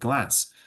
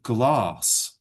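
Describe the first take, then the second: First: It is spoken in a northern English accent. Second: It is spoken in a southern English accent. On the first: "And I would say the window is made of glass" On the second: "He would say the window is made of glass"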